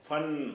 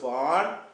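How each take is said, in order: First: The vowel is cut short. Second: The vowel is drawn out long. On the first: The speaker calls it right. "ஃபன் அப்படி சொல்லணும்" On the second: The speaker calls it wrong. "ஃபான்னு சொல்லக்கூடாது"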